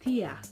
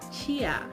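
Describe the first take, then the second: First: It starts with a plain t sound. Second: It starts with a ch sound. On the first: "pronouncing it in European Portuguese would be" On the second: "pronouncing it in Brazilian Portuguese, it would be"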